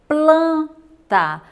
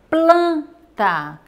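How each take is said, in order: The two takes are said the same way.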